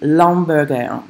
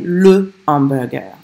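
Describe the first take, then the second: First: The article is elided and joined to the noun. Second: The article is said fully as a separate syllable. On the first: The speaker calls it wrong. "you don't say L apostrophe" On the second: The speaker calls it right. "You say le hamburger"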